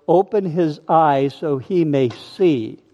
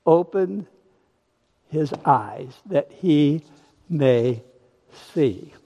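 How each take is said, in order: First: Said in the usual way. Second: Each word drawn out; preacher repeating the prayer slowly for emphasis; slow, savoured repeat. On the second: Shown as a demonstration. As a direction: linger on every word of the prayer.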